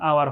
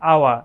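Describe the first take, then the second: First: It ends with an r sound. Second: It ends without an r sound. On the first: "American স্ট্যান্ডার্ডে এটার উচ্চারণ আওয়ার হয়" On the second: "British উচ্চারণে ... এই র এর উচ্চারণটা আপনি যদি সাইলেন্ট রাখেন"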